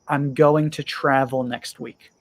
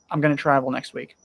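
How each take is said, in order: First: Both words of 'going to' are said separately. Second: The two words merge into one short word.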